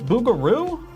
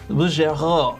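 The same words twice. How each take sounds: First: The ending rhymes with kangaroo, English-style. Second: The r is a French sound from the throat. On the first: The speaker calls it wrong. "Bouguereau is supposed to rhyme with kangaroo" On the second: The speaker calls it right. "the French throat sound"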